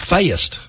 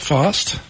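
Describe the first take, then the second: First: The word is said in a Tennessee accent. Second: The word is said in a plain accent.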